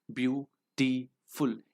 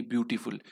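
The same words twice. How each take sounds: First: ब्यूटीफुल slowly split into three syllables. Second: Said in the usual way. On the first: Shown as a demonstration. Teacher showing students three syllables, ब्यूटीफुल said slowly in separate pieces. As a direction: break ब्यूटीफुल into ब्यू, टी, फुल with gaps. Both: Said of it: "ये तीन syllable का हो गया".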